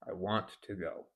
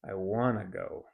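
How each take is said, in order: First: "Want to" is said as two full words. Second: "Want to" is reduced to "wanna" with a schwa. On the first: "Let's say I want to go" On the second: "this reduces I want to to I wanna"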